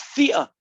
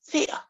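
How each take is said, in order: First: It is said in the speaker's own pronunciation. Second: It is said in an American pronunciation. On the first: The speaker calls it right. "It's theta" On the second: The speaker calls it wrong. "not theta"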